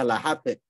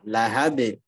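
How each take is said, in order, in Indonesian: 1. Bunyi b terdengar seperti p tak bersuara. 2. Bunyi b-nya kuat dan bersuara.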